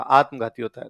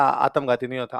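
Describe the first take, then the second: First: आत्मघाती with a full long opening आ and clear त्म; correct pronunciation. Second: आत्मघाती said the local way, first vowel clipped; wrong pronunciation. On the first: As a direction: say आत्मघाती carefully and fully. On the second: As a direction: say आत्मघाती the Churu way, dropping the sounds. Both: Retold or imitated. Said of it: "sir ने कहा".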